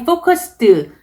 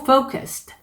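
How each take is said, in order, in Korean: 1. 마지막 -ed는 목소리를 세게, 강하게 냅니다. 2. 마지막 -ed는 부드러운 바람 소리예요. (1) "너무 세게 focused 이렇게 목소리 내지 마시고" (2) "바람처럼"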